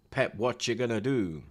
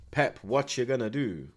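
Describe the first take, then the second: No difference in how they are said.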